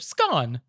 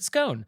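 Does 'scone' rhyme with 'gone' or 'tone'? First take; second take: gone; tone. First: The vowel rhymes with 'gone'. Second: The vowel rhymes with 'tone'. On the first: "had been and gone and ordered me a buttered scone" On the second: "in dulcet tone to order me a buttered scone"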